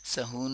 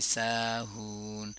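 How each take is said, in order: First: सहून with a clipped short first vowel; teacher says सहून quickly without the long aa; short a, wrong. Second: साहून with both aa and uu drawn out slowly; teacher stretches साहून evenly on aa and uu; long vowels. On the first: Tajweed teacher showing students the wrong सहून. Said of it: "सहून नहीं पढ़ेंगे". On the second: Tajweed teacher showing students the correct साहून. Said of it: "अलिफ मद्दा और वाव मद्दा". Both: Shown as a demonstration.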